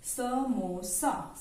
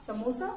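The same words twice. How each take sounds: First: समोसा drawn out as स-मो-सा; syllable by syllable. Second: Said in the usual way. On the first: Shown as a demonstration. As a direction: sound out समोसा very slowly in three parts. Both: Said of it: "तीन अक्षरों से मिलकर बना है".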